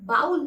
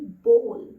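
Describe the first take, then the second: First: The vowel sounds like 'ow' in 'cow'. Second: The vowel sounds like 'oh' in 'go'. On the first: The speaker calls it wrong. "बाउल नहीं" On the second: The speaker calls it right.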